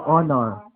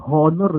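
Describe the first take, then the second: First: "Honor" said as "onor", no h sound; "Honor" opening softly on a clean o; silent h. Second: "honor" with an audible h at the start; "honor" said as "hon-or", h fully pronounced; h sounded. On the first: Shown as a demonstration. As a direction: drop the h of "Honor" and start on the vowel. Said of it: "Paano ba pronounce yun?". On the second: Retold or imitated. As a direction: mimic the mistake, breathing out the h in "honor". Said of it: "Meron kasi nagpapronounce".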